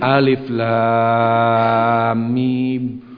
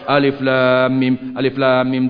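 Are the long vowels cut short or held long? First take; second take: held long; cut short. First: The long vowels are held at full length. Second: The long vowels are cut too short. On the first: The recitation has proper vowel length. The speaker calls it right. "bacaanmu kurang tepat, kata dia. Begini" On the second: The recitation lacks proper vowel length. The speaker calls it wrong. "Jadi bacanya panjang pendeknya kurang"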